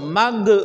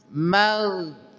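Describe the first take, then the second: First: The consonant ends with a bouncing echo. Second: The consonant flows smoothly without a bounce. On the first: The speaker calls it wrong. "jangan sampai sampai apa? Sampai mantul" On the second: The speaker calls it right. "Ghairil mag mag"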